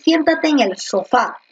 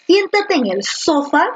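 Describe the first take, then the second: First: Sofá said so-FÁ, last syllable stressed. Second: Sofá said as SÓ-fa, first syllable stressed; wrong stress, SÓ-fa. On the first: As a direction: land the weight on the fá of sofá. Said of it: "o tú dices". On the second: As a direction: lean hard on the so of sofá. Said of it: "Ahora tú dices". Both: Shown as a demonstration.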